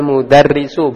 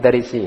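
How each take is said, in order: First: The word ends with an u vowel. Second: The word ends with an i vowel. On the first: The speaker calls it right. "kharajal mudarrisu" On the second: The speaker calls it wrong. "bukan mudarrisi"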